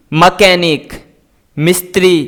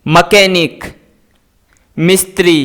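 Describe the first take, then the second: No difference in how they are said.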